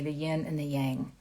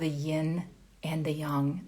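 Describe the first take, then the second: First: It is said in an American accent. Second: It is said in a non-American accent.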